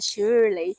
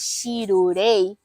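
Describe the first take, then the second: First: The name is said with English sounds. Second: The name is said with Japanese-style syllables. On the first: "o meu nome é um nome americano" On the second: "fica uma pronúncia meio esquisita"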